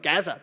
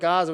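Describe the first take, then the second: First: Gaza is said in a broad Australian accent. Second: Gaza is said in a neutral accent.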